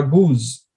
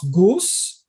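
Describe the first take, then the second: First: Goose said like gooz, with a buzzing Z; falling goose, Z in place of S; Z ending. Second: Goose with a hissed S at the end, rising. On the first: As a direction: offer goose with a voiced Z ending. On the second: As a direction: ask with goose ending in S. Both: Shown as a demonstration. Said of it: "I'm gonna pronounce goose or goose?".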